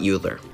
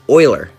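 First: The name begins with a 'yoo' sound. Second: The name begins with an 'oy' sound. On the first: The speaker calls it wrong. "not Euler" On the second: The speaker calls it right. "is pronounced Euler"

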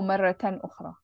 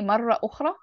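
First: The first word ends with a -tan ending. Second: The first word ends without a -tan ending. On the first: The speaker calls it right. "So maratan ukhra is better" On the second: The speaker calls it wrong. "You can say marra ukhra"

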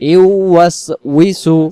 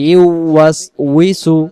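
The two takes are said the same way.

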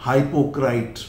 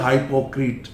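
First: The last syllable sounds like "krait". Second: The last syllable sounds like "kret". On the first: "some people pronounce it हाइपोक्राइट" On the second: "सम बोलते हाइपोक्रेट"

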